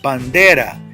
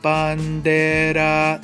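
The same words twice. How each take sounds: First: The voice rises on the middle syllable. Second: It is said flat with no pitch rise. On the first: The speaker calls it right. "I say bandera. You can hear the voice. It's the second to the last syllable" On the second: The speaker calls it wrong. "There is no shift. It's all monotone"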